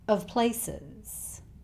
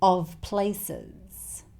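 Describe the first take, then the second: First: The word 'of' has a reduced schwa vowel. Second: The word 'of' has a full vowel. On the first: "replaced with a schwa sound" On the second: "it's pronounced with a V sound"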